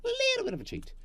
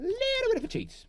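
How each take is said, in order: First: Very high squeaky cheeky voice. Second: Much higher little cheeky voice; squeaky voice. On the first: Builder cheats, even higher squeak. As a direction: squeak it like a mischievous imp. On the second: Builder cheats, playfully squeaky. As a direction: say it like a sneaky imp. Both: Pretend.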